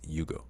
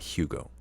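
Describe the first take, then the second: First: The name begins with a Y sound. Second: The name begins with an H sound. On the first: The speaker calls it right. "his name is pronounced Yugo" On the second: The speaker calls it wrong. "It's not Hugo"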